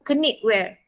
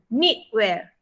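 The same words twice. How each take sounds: First: The word starts with a K sound. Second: The word starts with an N sound. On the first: The speaker calls it wrong. "bukan knitwear" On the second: The speaker calls it right. "kita jangan bunyi hok K tu. Bunyi N je"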